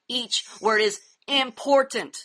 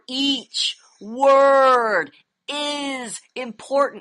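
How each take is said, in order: First: It is said quickly, rushed through. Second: It is said slowly, every word emphasized.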